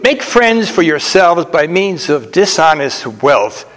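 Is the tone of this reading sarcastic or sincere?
sincere. It is read in a plain, sincere tone. The advice is meant literally.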